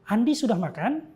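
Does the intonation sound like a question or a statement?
question. It is said with question intonation. It asks whether Andi has eaten. "intonasinya berbeda. Itu intonasi bertanya"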